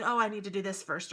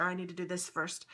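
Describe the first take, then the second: First: Self quote. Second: Said in the usual way. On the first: Retold or imitated. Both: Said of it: "I keep saying".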